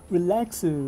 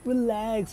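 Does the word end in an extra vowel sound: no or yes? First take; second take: yes; no. First: The word ends with an added vowel sound. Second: The word ends on a consonant, no added vowel. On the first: "relaxu is a Japanese, well, slang" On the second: "he's actually trying to say relax"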